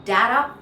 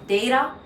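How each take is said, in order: First: Data as "dadda", loud, vowel as in cat; short-A variant. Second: Data as "day-da"; long-A variant. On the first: Teacher lists the three ways, short A. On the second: Teacher lists the three ways, long A first. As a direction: open data with the vowel of day. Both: Shown as a demonstration. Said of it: "you can say all three".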